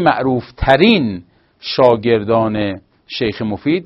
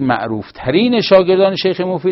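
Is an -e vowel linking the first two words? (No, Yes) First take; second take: No; Yes. First: No -e vowel links the first two words. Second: An -e vowel links the first two words. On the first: Several students are the most famous ones. "پیشنهاد میکنن که ما بگیم معروفترین شاگردان شیخ مفید سید مرتضی، سید رضی و شیخ طوسی بودن" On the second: One student is the most famous of them. "اگه اینجوری بگید باید مفرد بگید"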